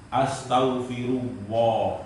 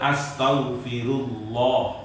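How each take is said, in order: First: The L is made with both lips, like W. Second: The L is made with the tongue touching. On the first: The speaker calls it wrong. "bukan astaghfirullah" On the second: The speaker calls it right. "Yang benar astaghfirullah"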